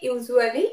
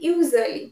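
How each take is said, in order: First: The middle U vowel is pronounced. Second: The middle U vowel is silent. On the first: The speaker calls it wrong. "But it will not be" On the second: The speaker calls it right. "ইউ will not be প্রনাউন্সড"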